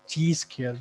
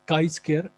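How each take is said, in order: First: The first word sounds like "chee". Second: The first word sounds like "kai". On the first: The speaker calls it wrong. "जो कि वो भी गलत है" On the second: The speaker calls it right. "इसकी सही pronunciation जो है वो काई स्क्वायर"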